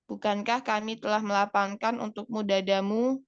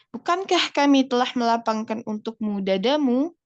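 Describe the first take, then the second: First: The sentence is said on a flat pitch. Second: The sentence has a lively questioning pitch. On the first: The speaker calls it wrong. "pertanyaan kan nggak boleh datar. ... Kan bukan gitu ya" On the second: The speaker calls it right. "Gitu kan ya"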